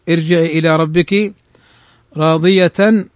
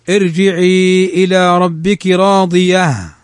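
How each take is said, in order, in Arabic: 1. تنتهي الكلمة الأخيرة بصوت التنوين. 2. تنتهي الكلمة الأخيرة بصوت الهاء.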